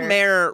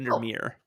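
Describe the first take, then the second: First: The ending rhymes with the word underwear. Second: The ending does not rhyme with underwear. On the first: "rhymes with underwear" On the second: "so I say"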